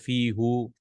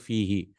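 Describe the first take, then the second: First: The pronoun is said with an 'oo' vowel. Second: The pronoun is said with an 'ee' vowel. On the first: The speaker calls it wrong. "Arabs did not like to say fi who" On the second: The speaker calls it right. "they made it into fi he"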